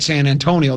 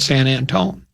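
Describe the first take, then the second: First: The name is said with full Antonio ending. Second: The name is shortened to end in Antone. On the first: This is how it is spelled, not how locals say it. The speaker calls it wrong. "They don't call it San Antonio" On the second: This is how locals say it. The speaker calls it right. "They call it San Antone"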